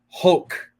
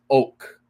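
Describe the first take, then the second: First: The word begins with an audible h sound. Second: The word begins directly with the vowel sound. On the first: The speaker calls it wrong. "the incorrect pronunciation" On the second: The speaker calls it right. "no pronunciation of the H"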